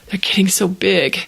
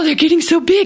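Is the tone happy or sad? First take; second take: sad; happy. First: It is said in a sad, wistful tone. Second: It is said in a happy, cheerful tone. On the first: The kittens will soon leave to live elsewhere. "I say it like this" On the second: The kittens growing up is good news. "they mean it in a happy way"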